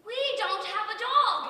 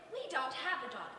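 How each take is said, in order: First: Exasperated outburst. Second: Said in the usual way. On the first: Acted. Exasperated telling Kenny. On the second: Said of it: "I said to her politely".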